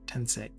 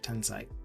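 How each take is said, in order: First: The final syllable sounds like 'say'. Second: The final syllable sounds like 'sigh'. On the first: The speaker calls it wrong. "I read it as if you had an E close to the end" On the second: The speaker calls it right. "instead of Tensai"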